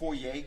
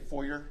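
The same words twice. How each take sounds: First: The word ends with a fancy 'ay' sound. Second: The word ends with a plain 'er' sound. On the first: The speaker calls it right. "you say foyer" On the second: The speaker calls it wrong. "you don't say foyer"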